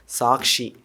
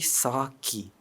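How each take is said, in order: First: The word has an sh sound before the end. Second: The word has no sh sound before the end. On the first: The speaker calls it wrong. "I used to pronounce it saying sakshi" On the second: The speaker calls it right. "It's actually saki"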